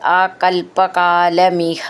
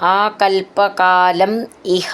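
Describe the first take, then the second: First: The words are run together as one unit. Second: The words are said as separate units.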